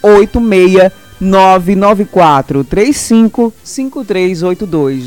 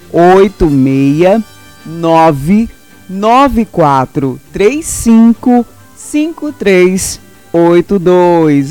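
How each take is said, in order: First: The number is said at normal speed. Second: The number is said slowly, with pauses.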